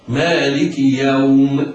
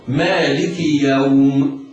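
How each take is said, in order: First: The stretched vowel is held for two counts. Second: The same.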